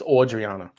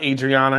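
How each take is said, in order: First: The first vowel sounds like 'awe'. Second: The first vowel sounds like 'add'. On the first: The speaker calls it right. "it's Audriana" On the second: The speaker calls it wrong. "It's not Adriana"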